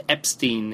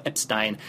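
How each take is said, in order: First: Epstein ending in -steen, long ee. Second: Epstein ending in -stine, long i. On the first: Podcaster naming the audiobook narrator, Epstein said EP-steen. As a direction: say Epstein to rhyme with green. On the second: Podcaster trying the narrator's surname another way, Epstein said EP-stine. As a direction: say Epstein to rhyme with fine. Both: Real, not acted. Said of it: "who I just looked up".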